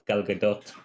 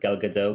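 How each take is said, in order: First: The name is said with a Hebrew pronunciation. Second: The name is said with an American pronunciation. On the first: The speaker calls it right. "in Hebrew it's pronounced" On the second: The speaker calls it wrong. "the Americans always pronounce it"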